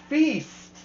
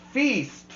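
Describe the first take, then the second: No difference in how they are said.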